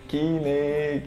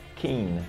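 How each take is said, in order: First: It is said with Brazilian Portuguese sounds. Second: It is said with English sounds. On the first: The speaker calls it wrong. "muita gente no Brasil chama a banda assim" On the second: The speaker calls it right. "Na verdade, a pronúncia é Kine"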